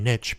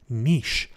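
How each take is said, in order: First: Niche is said the American way. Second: Niche is said the British or Canadian way. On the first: "the American term niche" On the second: "the more Canadian or British way of saying it"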